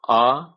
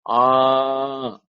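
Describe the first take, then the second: First: The vowel is held very briefly. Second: The vowel is held for three beats. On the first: "Hriswa means short" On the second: "Pluta means more than th- more than three"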